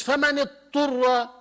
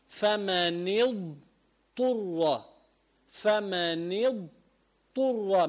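First: فمن اضطر with no ض, heard as فمن اطّر; wrong, dad dropped. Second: فمن اضطر very slow, with the ض from the side of the tongue against the molars; correct, slow, clear dad. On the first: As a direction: drop the ض as a careless reader would. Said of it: "وين روحت بالضاد؟". (اضطر بدون ضاد) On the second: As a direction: separate the ض from the ط in اضطر. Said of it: "بدك تنتبه". (نطق صحيح بطيء للضاد في اضطر) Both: Shown as a demonstration.

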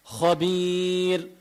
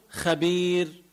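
First: خبير drawn out with a backed "kho"; heavy خ. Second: خبير with a thin "kha"; wrong thin خ. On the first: Teacher showing the right way, slow خبير with heavy خ. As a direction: thicken the خ of خبير, "khobiir". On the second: Teacher showing what not to say, خبير with thin خ. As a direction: lighten the خ of خبير, "khabiir". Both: Shown as a demonstration. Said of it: "ما بقول خبير".

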